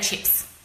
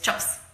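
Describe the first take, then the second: First: It is said in an Australian accent. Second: It is said in a New Zealand accent.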